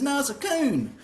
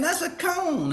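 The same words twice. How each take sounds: First: Coon for cone, long oo, higher pitch; Northern accent cone. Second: Cone with a long o, high-pitched correction; Southern cone. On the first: Worker contradicting the driver, high insistent coon with oo. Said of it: "And he says". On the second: Driver correcting the worker's word, high insistent cone with oh. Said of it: "And I'm saying". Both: Retold or imitated.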